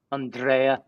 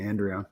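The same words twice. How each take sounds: First: Andrea as ahn-DRAY-a; accented name. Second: Andrea as AN-dree-a, the common way; plain English pronunciation. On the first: Shown as a demonstration. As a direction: say Andrea with open AH and stressed DRAY. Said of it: "You do do an accent". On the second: Retold or imitated. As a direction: say Andrea with flat AN and an EE in the middle. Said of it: "just giving in".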